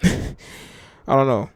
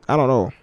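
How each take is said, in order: First: Slow drawn-out chuckling I don't know; laughing. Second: Said in the usual way. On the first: Real, not acted. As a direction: laugh it out slowly.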